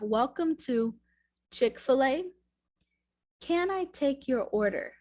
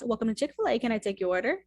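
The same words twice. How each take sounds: First: The phrase is spoken slowly. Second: The phrase is spoken very quickly. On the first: "let's say it again slower" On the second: "sometimes they say it fast"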